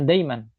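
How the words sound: It is said in colloquial Arabic pronunciation. "Sedangkan dalam amiyah daiman"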